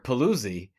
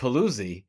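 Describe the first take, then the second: First: The name's vowels are swapped, the common American way. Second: The name's vowels are swapped, the common American way.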